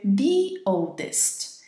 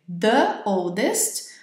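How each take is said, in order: First: 'The' is said with a long 'thee' vowel. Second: 'The' is said with a short 'thuh' vowel. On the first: The speaker calls it right. "você vai dizer" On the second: The speaker calls it wrong. "invés de você dizer"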